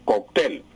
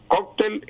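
First: "cóctel" said kok-TEL; "cóctel" the Colombian way, TEL stressed. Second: High "cóctel" said KOK-tel; "cóctel" the Spanish way, KOK stressed; Spain's stress. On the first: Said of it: "aquí en Colombia". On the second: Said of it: "cóctel en España". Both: Shown as a demonstration.

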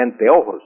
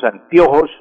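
First: "anteojos" with a clear E, an-te-o-jos; correct E. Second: "anteojos" said as "antiojos"; E turned to I. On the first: Language expert giving the proper form, "anteojos" pronounced with E. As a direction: keep E and O apart in "anteojos". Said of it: "en lugar de anteojos". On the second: Language expert giving another common error, "anteojos" mispronounced as antiojos. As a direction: say "anteojos" with I replacing E: an-tio-jos. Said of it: "convertimos la E en una". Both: Shown as a demonstration.

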